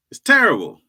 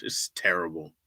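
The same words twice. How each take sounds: First: Louder, higher wail on terrible; mock anguish. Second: Said in the usual way. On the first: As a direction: cry out terrible in mock despair. Repeats line, louder second time.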